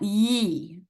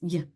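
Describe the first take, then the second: First: The consonant is followed by a vowel sound. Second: The consonant is cut off short, without a vowel. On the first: The speaker calls it wrong. "but it's not ye" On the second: The speaker calls it right. "You have to just cut it off just a little bit"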